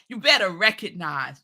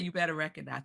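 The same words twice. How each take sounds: First: It is said with swagger and attitude. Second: It is said flatly, without any attitude. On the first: The speaker calls it right. "You got to be like, ... Some swag, some attitude" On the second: The speaker calls it wrong. "You just can't say you better recognize"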